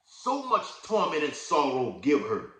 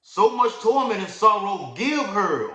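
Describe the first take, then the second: First: "So much torment and sorrow give her" slow and weighty; read with emphasis. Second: "So much torment and sorrow give her" slow, high and loud, every word leaned on; emphatic reading. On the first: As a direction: deliver "So much torment" with power. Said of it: "We gotta read it with emphasis, with power". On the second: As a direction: drag out "So much torment" with force. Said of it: "Oh, that's a breakdown right there". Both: Shown as a demonstration.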